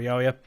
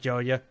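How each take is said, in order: First: The name begins with a Y sound. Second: The name begins with a J sound.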